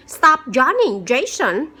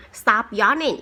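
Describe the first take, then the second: First: Higher, louder teacher telling off a pupil; scolding teacher. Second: Said in the usual way. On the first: Acted. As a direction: call the yawning boy to order. Teacher scolds the yawning student.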